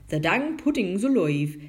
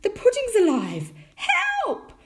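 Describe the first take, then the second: First: Loud rustic tinker voice; astonished tinker. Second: Very high, loud alarmed shriek; panicked cry. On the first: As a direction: blurt it out as a flabbergasted tinker. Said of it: "said the tinker". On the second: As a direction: cry out for help in comic panic. Mother panics at living pudding. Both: A narrator's reading.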